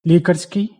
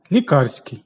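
First: Лікарський as лі́карський, first syllable hit; meaning "a doctor's", so stress the start; наголос на першому складі. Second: Лікарський as ліка́рський, second syllable hit; meaning "medicinal", so stress the middle; наголос на другому складі. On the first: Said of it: "від лікар". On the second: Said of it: "лікувальні властивості". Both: Shown as a demonstration.

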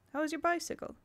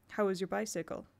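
First: "How is your bicycle?" lifted higher; higher retake. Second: Said in the usual way. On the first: Shown as a demonstration.

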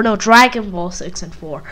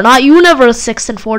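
First: Dragon Ball stressed, the rest soft and low. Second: Universe hit as the word being corrected; stress on Universe. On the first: Insisting on the running joke, he stresses Dragon. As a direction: lean on Dragon in Dragon Ball six and four. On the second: Correcting himself, he leans on Universe. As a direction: lean on Universe in Not Universe six and four. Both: Shown as a demonstration.

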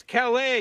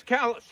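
First: Calais said ka-LAY, stress on the end; mock-proper Calais, ka-LAY like the French; fancy Calais. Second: Calais said KAL-us, like callus; the Maine way, Calais as KAL-us; local Calais. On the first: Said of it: "but over here, it's Calais". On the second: Retold or imitated. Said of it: "It might be Calais on the other side of the pond".

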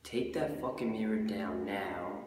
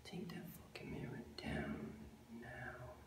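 First: Slow, drawn-out catchphrase; battle catchphrase. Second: Catchphrase whispered, unvoiced. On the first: Acted. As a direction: deliver the slogan slowly. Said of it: "everyone says it at the battles". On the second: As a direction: breathe the slogan to yourself. Catchphrase whispered under breath.

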